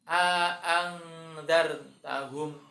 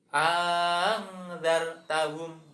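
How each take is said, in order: First: Both glottal stops are clearly pronounced. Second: The second glottal stop becomes a long vowel. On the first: "yang pertama bitahqiqil hamzati, dengan menunjukkan hamzahnya" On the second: "Yang kedua ... hamzah yang pertama tadi dibaca panjang"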